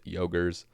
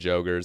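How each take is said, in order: First: The word begins with a Y sound. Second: The word begins with a J sound. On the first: The speaker calls it right. "I think the cor correct pronunciation is Yogers" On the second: The speaker calls it wrong. "I was calling them Jogers"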